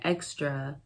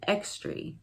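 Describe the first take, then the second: First: The word has its standard pronunciation. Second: The word has an old regional pronunciation. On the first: "Instead of saying extra" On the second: "they would say extra"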